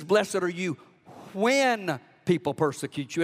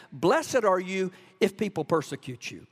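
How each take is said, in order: First: When lifted with a rise; preached with weight on when; stress on when. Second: Said in the usual way. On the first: Shown as a demonstration. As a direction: lean on the word when, not if. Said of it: "It's not if". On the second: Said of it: "I quoted it wrong".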